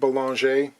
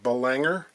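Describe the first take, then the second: First: The name is pronounced in a non-American way. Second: The name is pronounced in an American way.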